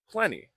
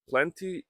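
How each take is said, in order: First: The word is said quickly with reduced sounds. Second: The word is said carefully with every sound. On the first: "while you're speaking quickly, you can practice pronouncing plenty" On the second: "Plenty is correct"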